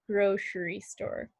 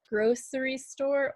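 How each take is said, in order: First: The middle consonant is a sh sound. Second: The middle consonant is an s sound. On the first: "with a sh, a S H sound" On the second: "grocery store with a sound"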